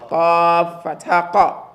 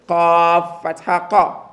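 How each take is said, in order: Both takes have the same delivery.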